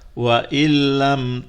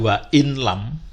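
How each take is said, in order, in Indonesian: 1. Bunyi n melebur ke dalam l tanpa dengung sengau. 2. Bunyi n diucapkan terpisah sebelum l. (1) "nunnya langsung hilang ya, melebur pada lam tanpa dengung" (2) "bukan dibaca"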